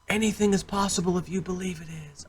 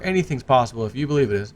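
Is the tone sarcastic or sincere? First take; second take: sincere; sarcastic. First: It is said warmly and sincerely. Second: It is said with a mocking, sarcastic tone. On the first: The saying is meant as genuine encouragement. "Oh, that's a wonderful saying" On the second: The saying mocks someone's unrealistic belief. "that's actually a sarcastic saying"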